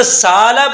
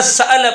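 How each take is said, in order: First: سالہ with a long plain a and no hamza; wrong full alif. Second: سألہ with a crisp glottal stop; full hamza. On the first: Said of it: "اس کو نہ سالہ پڑھیں". (ہمزہ کے بغیر، لمبے الف سے سالہ) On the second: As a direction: say سألہ with the hamza fully sounded. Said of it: "اور نہ سألہ پڑھیں". (مکمل ہمزہ کے ساتھ سألہ) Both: Shown as a demonstration.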